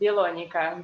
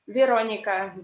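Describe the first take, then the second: First: It begins with a B and has an L. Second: It begins with a V and has an R. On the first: The speaker calls it wrong. "Japanese students, they say Bilonica" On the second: The speaker calls it right. "My name in English is Veronica"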